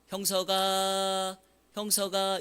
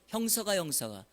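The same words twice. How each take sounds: First: The name is called slowly and leisurely. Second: The name is called quickly and urgently.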